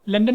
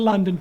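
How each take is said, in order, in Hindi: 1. पहला अक्षर छोटा है। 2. पहला अक्षर लंबा खिंचा हुआ है। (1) "लंदन नहीं करेंगे" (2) "थोड़ा-सा लंबा करेंगे"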